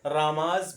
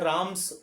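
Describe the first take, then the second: First: The ending is a buzzing z sound. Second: The ending is a hissing s sound. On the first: "जा का करोगे" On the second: "एस का भी उच्चारण करते हैं"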